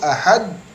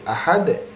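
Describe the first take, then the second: First: The final consonant stops flat without a bounce. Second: The final consonant bounces with a short echo. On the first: The speaker calls it wrong. "ini sudah betul, tetapi kurang sifatnya" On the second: The speaker calls it right. "dia harus memantul"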